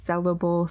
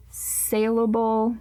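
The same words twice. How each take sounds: First: "sellable" with first syllable rhyming with bell; trying a pronunciation. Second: "saleable" drawn out, first syllable rhyming with pail; trying a pronunciation. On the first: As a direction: say "sellable" with a short E, like sell. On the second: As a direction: say "saleable" slowly with a long AY, like sale. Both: Shown as a demonstration. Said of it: "I think both are actually words".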